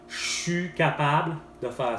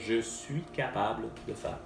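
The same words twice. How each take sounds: First: "Je suis" is squeezed into one syllable, "chu." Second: "Je suis" is said fully as two syllables. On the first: "c'est une grosse contraction" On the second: "ça veut dire"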